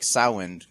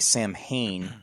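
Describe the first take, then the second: First: It has no M and the vowel of 'cow'. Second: It is said with an M, like it is spelled. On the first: "There's no M pronouncing it. kind of like the ow and cow" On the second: "what looks like Samhain"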